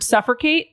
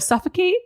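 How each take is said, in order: First: The first part sounds like the word 'suffer'. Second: The first part sounds like 'suff-uh', unstressed. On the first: The speaker calls it wrong. "Carl used the word suffocate" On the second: The speaker calls it right. "instead of suffocate"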